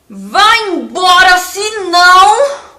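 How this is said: It is said in an angry, threatening voice. It is a threat. "Como que você falaria essa frase bravo?"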